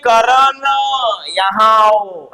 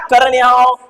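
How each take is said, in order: First: करण यहाँ आओ with यहाँ dragged out slow and low; mock calling a name with the ending drawn out; stretched call. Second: Said in the usual way. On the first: Shown as a demonstration. Teacher mocking a wrong way to call Karan. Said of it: "ऐसे बोलते हो क्या?". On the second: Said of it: "ऐसे ही बोलोगे ना".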